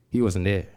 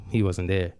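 No difference in how they are said.

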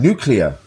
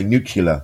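First: "Nuclear?" said properly as NEW-klee-er, a pointed correction; corrected pronunciation. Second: "nuclear" said as NOO-kyuh-ler, the wrong way; common mispronunciation. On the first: Retold or imitated. Alan Arkin correcting the president's "nuclear", said properly. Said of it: "he corrected him". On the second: Shown as a demonstration. Mocking how people say "nuclear" wrong, NOO-kyuh-ler. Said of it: "they say the word nuclear wrong".

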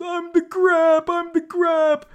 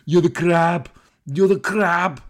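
First: High, loud, drawn-out mock wail; hammed-up anguished squeal; Danny DeVito. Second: Loud, hammed-up action-star impersonation; big booming mock taunt; Arnold Schwarzenegger. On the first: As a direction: cry it out in a very high comic voice. Acting out DeVito's anguished reply. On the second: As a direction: punch it out loud in a put-on Austrian accent. Acting out Schwarzenegger's taunting reply.

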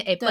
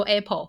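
First: Apple 念成 Appen，L 变 N; Apple with the final L turned into an N; Thai-accented Apple. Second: Said in the usual way. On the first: Retold or imitated. (模仿泰式口音：Apple 念成 Appen) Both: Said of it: "他们念Apple".

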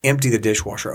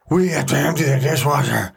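First: Said in the usual way. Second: Put-on "We have to empty the dishwasher" in a whiny kid voice; mock the kids' whining complaint.

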